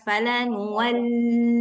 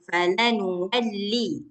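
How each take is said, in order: First: The doubled L is said with a nasal hum. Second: The doubled L is said quickly without nasal hum. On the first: The speaker calls it wrong. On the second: The speaker calls it right. "lam tasydid nggak boleh dengung... cepat-cepat aja dilewati"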